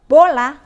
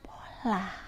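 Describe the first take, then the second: First: The word is said in a louder voice. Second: The word is said in a whisper. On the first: "kita menggunakan suara yang lebih keras untuk kata bola"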